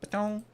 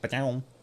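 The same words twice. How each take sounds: First: It is said in a mid-pitched voice. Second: It is said in a deep, low voice.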